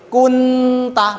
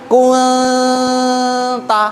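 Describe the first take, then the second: First: The n is fully closed before the t. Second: The n is hidden in a floating nasal sound. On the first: The speaker calls it wrong. "gak boleh kun ta" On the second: The speaker calls it right. "lidahnya agak diangkat sedikit"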